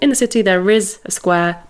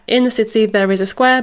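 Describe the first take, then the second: First: The voice falls at the end. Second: The voice rises at the end. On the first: The speaker is stating that there is a square. "it could just be a statement" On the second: The speaker is asking whether there is a square. "I kind of put a bit of a intonation on it, didn't I?"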